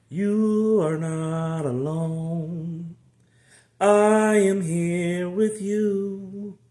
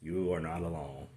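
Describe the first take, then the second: First: Very slow, high, sung-out comfort; slow drawn-out reassurance. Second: Quiet, low reassurance; soft quiet assurance. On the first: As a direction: stretch every word to comfort. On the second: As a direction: whisper it close. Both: Real, not acted.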